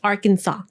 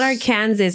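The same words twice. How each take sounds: First: The final S is silent. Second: The final S is pronounced. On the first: The speaker calls it right. "The the S is is silent" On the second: The speaker calls it wrong. "It's not Arkansas"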